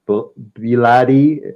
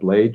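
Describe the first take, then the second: First: The name is said in a non-American way. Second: The name is said the American way. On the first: "that's how I'd pronounce the name" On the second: "in America that's how they pronounce that word"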